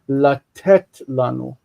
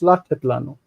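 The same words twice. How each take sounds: First: The stress in latet is on the second syllable. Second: The stress in latet is on the first syllable. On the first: This is the everyday modern way of saying it. "even though we would naturally say today" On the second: This is how the text itself marks it. "the accent is pulled back"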